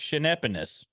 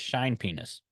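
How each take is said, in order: First: The first syllable sounds like 'shane'. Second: The first syllable sounds like 'shine'. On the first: The speaker calls it right. "It's Shanepenis" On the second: The speaker calls it wrong. "they get really angry if you pronounce it as shine penis"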